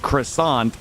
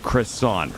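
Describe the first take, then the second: First: It is said with a French-style pronunciation. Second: It is said with a plain English pronunciation. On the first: It sounds pretentious. "I don't say croissant when I order" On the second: It is the everyday way to say it. "I just say croissant"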